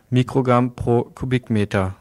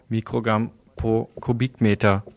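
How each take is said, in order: Both takes have the same delivery.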